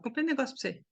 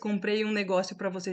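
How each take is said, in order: First: The words are reduced and run together. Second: Each word is pronounced fully and separately. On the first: The speaker calls it right. "Não" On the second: The speaker calls it wrong. "a gente não fala isso"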